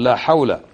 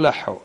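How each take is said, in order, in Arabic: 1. تُقال العبارة ككلمتين كاملتين واضحتين. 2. العبارة مختصرة في كلمة واحدة قصيرة مبتورة النطق. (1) "قل لا حول" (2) "لحو هذا خطأ"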